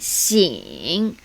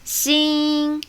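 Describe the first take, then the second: First: The syllable is said with tone three. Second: The syllable is said with tone one. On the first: "Tone three" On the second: "Tone one"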